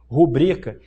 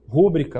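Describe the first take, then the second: First: The stress falls on the second syllable. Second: The stress falls on the first syllable. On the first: This is the form the grammar prescribes. The speaker calls it right. "o que está previsto na gramática?" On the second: This is how some people commonly say it. The speaker calls it wrong. "um advogado falar o quê?"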